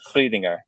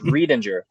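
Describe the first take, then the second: First: The surname is said with a Southern German pronunciation. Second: The surname is said with an American pronunciation. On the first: "it's a Southern German name, and out there it's pronounced" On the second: "The Americanized way of saying that last name is"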